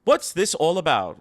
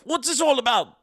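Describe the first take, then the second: First: Said in the usual way. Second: High, loud, hammed-up British accent. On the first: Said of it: "see if I can do my best British accent". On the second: Shown as a demonstration. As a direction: put on a terrible British accent, pitched way up. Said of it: "do my best British accent".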